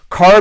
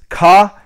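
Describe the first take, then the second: First: Said in the usual way. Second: "car" with the R dropped; British CAR. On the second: Shown as a demonstration. Teaching beginners "car" without its R. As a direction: say "car" as kah, open vowel. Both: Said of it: "Car becomes ka".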